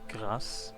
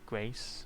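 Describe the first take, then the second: First: It is said with a French pronunciation. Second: It is said with an American English pronunciation. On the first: "the French word" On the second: "the American English English word"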